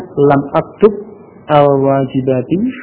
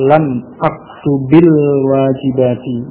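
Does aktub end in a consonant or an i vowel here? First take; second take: consonant; i vowel. First: Aktub ends in a consonant before al-wajibati. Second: Aktub takes an i vowel linking to wajibati. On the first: This is the underlying form before the change. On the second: The vowel is added to avoid two vowelless letters meeting.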